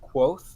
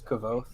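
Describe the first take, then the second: First: The name is said as one syllable, 'kwoth'. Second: The name is said as two syllables, 'ka-voth'. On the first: "it's pronounced Quoth" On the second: "I always pronounced it in my head as Kavoth"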